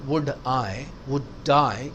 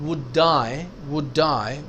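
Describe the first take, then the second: Both takes have the same delivery.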